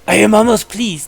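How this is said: It is said in a put-on character voice.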